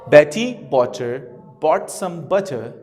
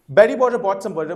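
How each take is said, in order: First: It is said slowly. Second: It is said fast.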